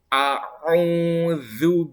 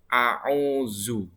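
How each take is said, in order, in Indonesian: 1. Lidah keluar, menghasilkan bunyi dh yang lembut. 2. Lidah tetap di dalam, menghasilkan bunyi z yang biasa.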